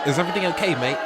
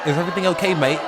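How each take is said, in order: First: It is said in a put-on British accent. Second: The same.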